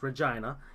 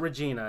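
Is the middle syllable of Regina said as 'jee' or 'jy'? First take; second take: jy; jee. First: The middle syllable sounds like 'jy'. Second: The middle syllable sounds like 'jee'. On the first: This is how the city's name is properly said. The speaker calls it right. "it's Regina" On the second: This is a common mispronunciation of the city. The speaker calls it wrong. "it's not Regina"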